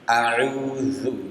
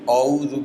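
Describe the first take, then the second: First: The opening vowel is light and open, like a. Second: The opening vowel is heavy and rounded, like o. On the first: The speaker calls it right. "harusnya tipis a" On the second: The speaker calls it wrong. "menebalkan huruf hamzah ... Itu tidak tepat ya bacanya"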